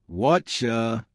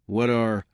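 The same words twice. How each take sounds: First: "What ya" blended into "whatcha"; "What ya" as one drawn-out chunk; reduced and linked. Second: Said in the usual way. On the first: Shown as a demonstration. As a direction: say "What ya" with a ch in the middle.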